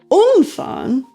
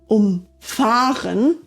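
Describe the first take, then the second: First: The stress is on the syllable um. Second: The stress is on the syllable fahren.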